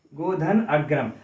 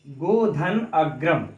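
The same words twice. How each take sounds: First: Said in the usual way. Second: Godhan अग्रम drawn out very slowly, each word spaced; slow dictation. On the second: Shown as a demonstration. Teacher reading the example slowly so students can write it. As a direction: spell out Godhan अग्रम slowly for note-taking. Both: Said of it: "तो हम लोग देख लेते हैं".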